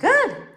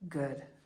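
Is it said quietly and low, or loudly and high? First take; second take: loud, high; quiet, low. First: It is said higher-pitched and louder. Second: It is said low-pitched and quietly.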